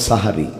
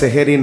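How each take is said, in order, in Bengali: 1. শব্দটি 'sa' দিয়ে শুরু। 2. শব্দটি 'se' দিয়ে শুরু। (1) "শুদ্ধ উচ্চারণ হলো সাহারি" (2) "ওটা সেহেরি নয়"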